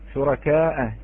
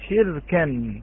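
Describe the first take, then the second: First: The word ends with a long vowel and glottal stop. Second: The word ends without a glottal stop, first vowel changed. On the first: "الكلمة هي شركاء" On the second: "بحذف الهمزة، ولكن غير في مبنى أو حركات البناء"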